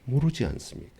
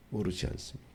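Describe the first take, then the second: First: Said in the usual way. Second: Much softer, almost murmured; quiet pleading echo of the question; hushed repeat. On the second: Acted. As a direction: drop to a near hush for the echo.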